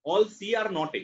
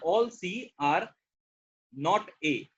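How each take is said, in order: First: Said in the usual way. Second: "All C are not A" stretched out very slowly, pausing before "not A"; slow demonstration read. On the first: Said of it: "ऐसे पढ़ना है". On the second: Shown as a demonstration. Teacher showing students how to read the sentence, very slowly. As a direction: drag each word out so students hear the structure. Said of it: "इस sentence को ऐसे पढ़ना है".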